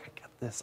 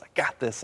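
First: Hushed, breathy "I got this" under his breath; murmured "I got this" without voice; whispered reassurance. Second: Said in the usual way. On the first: Retold or imitated. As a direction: whisper "I got this" to calm her. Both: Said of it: "And I'm like".

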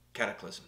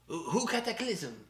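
First: Said in the usual way. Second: "Cataclysm" in a mock French accent, said kat-a-KLIZ-em. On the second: Host joking to co-host, "Cataclysm" in mock French accent. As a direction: stretch "Who, who Cataclysm?" with a French lilt. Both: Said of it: "with my French accent".

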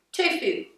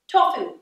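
First: "Tofu" said as TOO-foo; "Tofu" with long oo first vowel. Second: "Tofu" said as TAW-foo; "Tofu" with open aw first vowel. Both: Shown as a demonstration. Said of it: "Is it tofu or tofu?".

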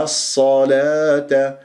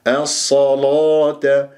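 First: الصلاة drawn out with a thin, light ل; Hafs light lam. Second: الصلاة drawn out with a thick, dark ل; Warsh heavy lam. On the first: Teacher shows the Hafs reading, thin lam. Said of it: "برواية حفص مرققة". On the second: Teacher shows the Warsh reading, heavy lam. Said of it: "تغلظ برواية ورش". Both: Shown as a demonstration.

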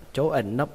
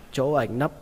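Both takes have the same delivery.

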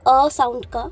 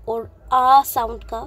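First: अ said short and clipped; a short, crisp अ then sound का; short अ, not stretched; short vowel demo. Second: आ drawn out long and open, slowly; long आ held out; long vowel demo. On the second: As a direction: stretch the आ clearly longer. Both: Shown as a demonstration. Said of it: "ए sound का कुछ ऐसे".

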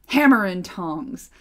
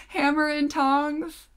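First: Slow, loud Hammer and tongs; dwarf oath. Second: Slow, higher, incredulous Hammer and tongs; amused disbelief. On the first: A narrator's reading. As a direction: bellow Hammer and tongs, slowly. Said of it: "torn between rage and joy". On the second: Real, not acted. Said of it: "Is that how dwarves say".

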